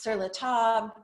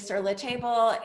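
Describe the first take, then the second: First: Table is said with a French pronunciation. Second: Table is said like the English word table. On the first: The speaker calls it right. "it's pronounced" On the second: The speaker calls it wrong. "most people here say"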